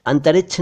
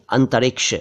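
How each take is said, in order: First: अंतरिक्ष said as "antarichchh"; mispronounced अंतरिक्ष. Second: अंतरिक्ष said as "antariksh"; correct pronunciation. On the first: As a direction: end अंतरिक्ष in chh, no k. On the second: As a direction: end अंतरिक्ष in clear k-sh. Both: Shown as a demonstration. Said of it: "अंतरिक्ष नहीं".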